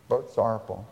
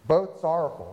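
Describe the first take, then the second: First: Said in the usual way. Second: Both sorrowful with Both emphasized; stress on both. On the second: Shown as a demonstration. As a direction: hit the word Both hard.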